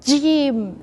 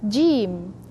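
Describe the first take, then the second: First: The first sound is pressed hard. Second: The first sound is softer, in between. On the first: The speaker calls it wrong. "you press too much" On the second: The speaker calls it right. "Just in between"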